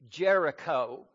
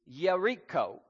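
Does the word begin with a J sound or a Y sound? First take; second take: J sound; Y sound. First: The word begins with a J sound. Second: The word begins with a Y sound.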